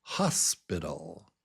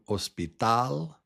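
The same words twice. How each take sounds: First: "hospital" as HOS-biddle, first syllable strong; English stress. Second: "hospital" as os-pi-TAL, silent h, last syllable stressed; Spanish pronunciation. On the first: Teacher contrasts with Spanish, English "hospital" stressed on HOS. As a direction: lead with HOS, drop low for the rest of "hospital". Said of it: "But in English". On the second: Teacher contrasts with English, Spanish "hospital" stressed on TAL. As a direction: rise onto a strong final TAL in Spanish "hospital". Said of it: "This word in Spanish". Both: Shown as a demonstration.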